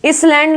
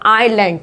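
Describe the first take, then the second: First: An s sound is pronounced in the word. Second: No s sound is pronounced in the word. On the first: The speaker calls it wrong. "इसलैंड नहीं बोलते" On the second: The speaker calls it right. "एस की आवाज इसमें बिल्कुल नहीं आएगी"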